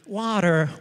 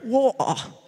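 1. Si pronuncia con un accento americano. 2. Si pronuncia con un accento britannico. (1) "tutte le vocali sono diverse" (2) "tutte le vocali sono diverse"

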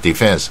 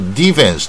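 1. 重音在第二个音节。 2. 重音在第一个音节。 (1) "明明是第二个音节啊" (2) "他一定教练球员一定说defense"

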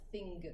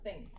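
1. Le mot se termine par un g dur audible. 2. Le mot se termine sur la nasale sans g. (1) "On ne va pas dire thing" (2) "On va dire thing"

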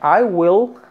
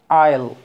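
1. Se dice como dos palabras completas. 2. Se dice como una sola sílaba contraída. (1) "En lugar de I will" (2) "decirlo contraído"

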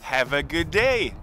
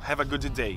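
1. Os dois sons de d se fundem em um só. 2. Os dois sons de d são pronunciados separadamente. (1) "Mata um day, fica have a good day" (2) "você não vai falar have a good day. Até porque fica bem esquisito o som"

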